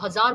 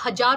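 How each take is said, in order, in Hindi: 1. यह शब्द z ध्वनि से बोला जाता है। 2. यह शब्द j ध्वनि से बोला जाता है। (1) "आपको हज़ार बोलना पड़ेगा" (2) "आप हज़ार नहीं बोल सकते हैं"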